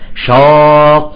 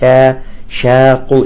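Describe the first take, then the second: First: The first consonant is heavy, with a darkened vowel. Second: The first consonant is light, with a clear vowel. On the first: The speaker calls it wrong. "بعضهم يقول مثلا شاق الله" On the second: The speaker calls it right. "لا، نقول شاق"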